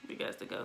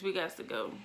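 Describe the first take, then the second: First: "We got to go" whispered much softer; whispered repeat. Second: Said in the usual way. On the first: Retold or imitated. Family decides to leave the possum house, whispered. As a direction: whisper it as an afterthought.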